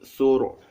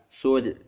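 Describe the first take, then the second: First: The R sound is heavy and full. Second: The R sound is light and thin. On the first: The speaker calls it right. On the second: The speaker calls it wrong.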